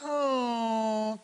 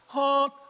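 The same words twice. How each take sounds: First: The honk is pitched lower. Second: The honk is pitched higher. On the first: The source has passed and is moving away. "and then when it gets past us" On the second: The source is coming toward the listener. "When it's approaching you... That's why the pitch goes up"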